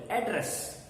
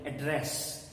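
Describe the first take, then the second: First: The stress is on the first syllable. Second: The stress is on the second syllable. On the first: The word is used as a noun. "if you use it as a noun, then you will uh, give your stress on the first syllable" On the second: The word is used as a verb. "when you use it as a verb, you will put your uh, stress on the second syllable"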